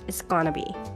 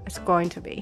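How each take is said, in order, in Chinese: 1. 这些词连读成一个简短的弱化形式。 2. 每个词都完整且单独发音。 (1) "如果说的很快的时候，它就很容易发出这个gonna 的这个发音了" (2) "going to"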